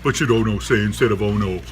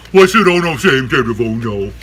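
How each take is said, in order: First: Said in the usual way. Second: Raised voice pressing for an answer; insistent repeat. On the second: Real, not acted. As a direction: ask it again, projecting hard. Same question repeated louder to listeners.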